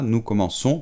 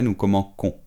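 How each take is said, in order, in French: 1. La consonne du milieu est un son s doux. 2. La consonne du milieu est un son k dur.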